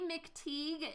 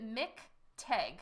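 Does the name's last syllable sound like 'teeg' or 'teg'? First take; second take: teeg; teg. First: The last syllable has a long 'ee' vowel. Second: The last syllable has a short 'e' vowel. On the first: "if you say McTeague, it doesn't matter" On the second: "I pronounce it Mick Teg"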